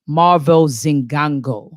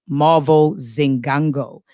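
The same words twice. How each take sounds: The two takes are said the same way.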